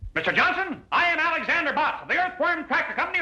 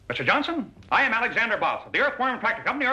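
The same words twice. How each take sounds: First: It is said very loudly, shouting. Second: It is said quietly, not shouting.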